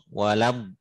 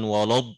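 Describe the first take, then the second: First: The lam is pronounced thin and light. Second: The lam is pronounced heavy and thick. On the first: The speaker calls it right. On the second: The speaker calls it wrong.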